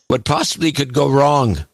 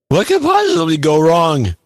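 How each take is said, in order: First: It is said in his normal voice. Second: It is said in a put-on voice.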